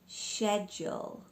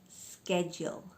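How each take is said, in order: First: It is said with a British pronunciation. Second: It is said with an American pronunciation.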